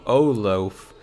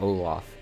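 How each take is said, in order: First: The name is said like 'oh loaf'. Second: The name is said like 'Olaf'. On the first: This is how the speaker used to say it. The speaker calls it wrong. "I would always pronounce the antagonist ... as" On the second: This is the usual way to say it. The speaker calls it right. "instead of Olaf"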